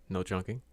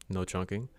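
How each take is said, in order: The two takes are said the same way.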